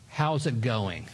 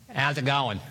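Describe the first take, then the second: First: It is said plainly, without the Australian accent. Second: It is said the Australian way.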